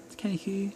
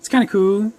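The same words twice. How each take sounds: First: Much softer, half to himself; hushed second take; muttered aside. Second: Louder and higher, bright enthusiasm; upbeat first take; enthused. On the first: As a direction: take it back down, unconvinced. Same phrase repeated, second soft. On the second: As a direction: sell it as genuinely cool. Same phrase repeated, first loud. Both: Pretend.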